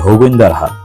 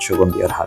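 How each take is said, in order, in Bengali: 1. নামটি স্থানীয় উপভাষায় h দিয়ে শুরু হয়। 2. নামটি তার প্রমিত s ও g ধ্বনি ধরে রাখে। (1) "তাদের আঞ্চলিক ভাষা ... তারা প্রত্যেকেই বলে থাকে হগুইন্দার হাট" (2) "আমি আমার ভিডিওর মধ্যে বারবার বলছি সুগন্ধিয়ার হাট"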